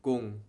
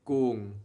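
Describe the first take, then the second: First: "gung" clipped short. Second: "gung" stretched long and slow; dragged out wrongly. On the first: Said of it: "It has to be short". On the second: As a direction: drag out "gung" as the mistake. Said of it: "Don't say gung. drag it out". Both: Shown as a demonstration.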